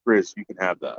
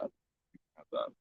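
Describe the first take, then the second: First: Said in the usual way. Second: Much softer, slower, unvoiced repeat; whispered aside. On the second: Shown as a demonstration. Repeating to Grizz that he can keep the bear meat, as a whispered aside. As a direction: breathe the line away as a private aside.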